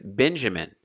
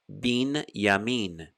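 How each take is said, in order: First: The first syllable is pronounced ben. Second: The first syllable is pronounced bin. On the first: "which you know as Benjamin" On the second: "So now we change again from Ben to Bin"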